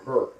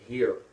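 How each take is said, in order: First: It is said in a St. Louis accent, like 'her'. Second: It is said with a plain standard vowel.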